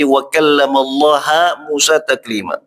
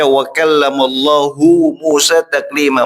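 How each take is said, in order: First: The word Allah ends with an 'a' vowel. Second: The word Allah ends with an 'u' vowel. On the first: The speaker calls it wrong. "harokat dhammah diganti menjadi fat fathah" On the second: The speaker calls it right. "seharusnya kan ya dibaca"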